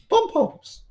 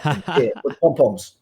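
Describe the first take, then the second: First: Mock cheerleader squeak, much higher; high mock cheer on "Pom-poms."; squeaky pom-poms. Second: Said in the usual way. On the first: Teasing Elise about ringside cheering.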